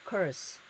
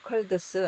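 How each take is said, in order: First: The d sound before the s is dropped. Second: The d sound before the s is pronounced. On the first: The speaker calls it right. "가운데 거를 묵음을 시킵니다" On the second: The speaker calls it wrong. "colds 안 하고"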